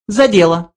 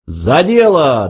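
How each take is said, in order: First: High little mouse voice; businesslike mouse. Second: Slow, drawn-out cheer; hearty toast. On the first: Mouse calls them to business, high voice. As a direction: get down to business, pitched high. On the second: Two men mistake it for a toast, drawn-out cheer. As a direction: raise a toast with a long exclamation. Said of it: "дружно воскликнули они". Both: A narrator's reading.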